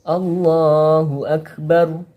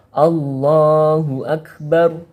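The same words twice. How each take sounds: Both takes have the same delivery.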